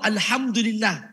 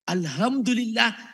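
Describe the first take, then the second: First: The h is deep and raspy, from the throat. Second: The h is a light, plain breathy h. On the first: All praise belongs to God. The speaker calls it right. "Segala puji bagi Allah" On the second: Death belongs to God. The speaker calls it wrong. "kalau salah baca"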